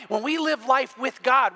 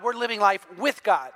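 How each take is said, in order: First: Said in the usual way. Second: "with" pressed and slowed, the key word; stress on with. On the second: Shown as a demonstration. Preacher repeating his point to the congregation, stress on "with". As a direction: lean on "with" to make the point.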